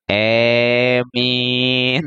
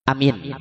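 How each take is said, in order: First: The first vowel sounds like e. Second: Both vowels are short. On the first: "hamzahnya diimalahkan... dicampurkan jadi E" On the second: "hamzah pendek, mim pendek"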